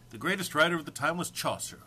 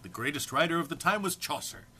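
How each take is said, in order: Both takes have the same delivery.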